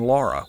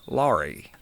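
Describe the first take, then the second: First: The name ends in an 'uh' sound. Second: The name ends in a long 'ee' sound.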